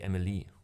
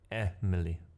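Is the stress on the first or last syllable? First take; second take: last; first. First: The stress is on the last syllable. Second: The stress is on the first syllable. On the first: The speaker calls it wrong. "not on on Lee. Otherwise, otherwise it would be Emily" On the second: The speaker calls it right. "the emphasis on the a on the first note is like Emily"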